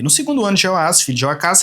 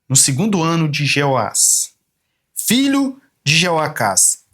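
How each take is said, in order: First: It is read quickly and hurriedly. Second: It is read slowly and deliberately. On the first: The text seems to be in the way. The speaker calls it wrong. "Ele quer ler rápido" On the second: The text is treated as important. The speaker calls it right. "A velocidade foi alterada para menor"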